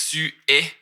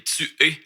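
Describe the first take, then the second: First: "es" with open è sound; careful two-syllable tu es, open final vowel; standard vowel. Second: "es" closed to é; two syllables, es tightened to "ay"; Québécois spoken vowel. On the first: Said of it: "Le est". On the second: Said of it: "devient et". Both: Shown as a demonstration.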